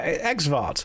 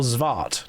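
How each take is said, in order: First: The word begins with an 'eks' sound. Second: The word begins with a 'z' sound. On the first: "depending on how you want to pronounce it" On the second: "depending on how you want to pronounce it"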